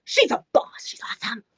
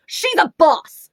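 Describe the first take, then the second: First: Awed gushing. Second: High, loud, drawn-out cheer; excited gushing. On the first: Repeats the gush, thinner voice. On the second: Reviewer shows off the heroine, loud gushing. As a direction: belt it out slowly in admiration. Gushes over heroine on cover. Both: Real, not acted.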